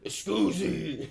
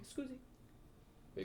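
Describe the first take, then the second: First: It is said in a deep voice. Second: It is said softly and meekly.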